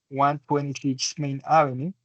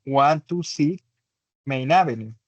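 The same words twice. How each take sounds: First: Said in the usual way. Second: "one two six" read as separate digits with small gaps; "Main Avenue" after the spaced digits. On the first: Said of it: "o puedes decirlo uno por uno". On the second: Shown as a demonstration. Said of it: "puedes decirlo uno por uno".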